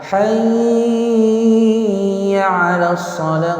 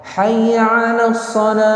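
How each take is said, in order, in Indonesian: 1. Bunyi y ganda itu ditahan panjang. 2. Bunyi y ganda itu pendek dan ditekan. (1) "Jangan ditekan, ditahan ya, jangan hayya 'alas shalah, enggak boleh" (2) "Ditekan. Hayya 'alas gitu aja bacanya"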